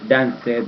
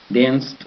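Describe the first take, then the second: First: The ending is an extra syllable. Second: The ending is a single consonant. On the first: The speaker calls it wrong. "nunca diga danced" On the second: The speaker calls it right. "Es más como, como una D, como una T"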